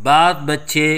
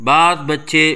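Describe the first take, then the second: The two takes are said the same way.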